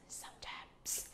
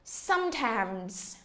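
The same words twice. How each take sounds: First: "Sometimes" whispered, breath only. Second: Said in the usual way. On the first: Shown as a demonstration. Teacher whispers "Sometimes" back to the students. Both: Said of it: "nhớ phát âm cuối".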